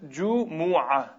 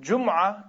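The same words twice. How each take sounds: First: A vowel follows the m sound. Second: No vowel follows the m sound. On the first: The speaker calls it right. "That's a correct pronunciation" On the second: The speaker calls it wrong. "Jumu'ah is wrong. ... with a sukun on the meme"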